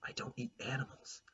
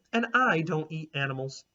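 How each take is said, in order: First: Soft unvoiced whisper of a shy girl. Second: Said in the usual way. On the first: A narrator's reading. Olive quietly tells Clementine she skips meat, whispered. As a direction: Olive breathes it out. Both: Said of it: "I said".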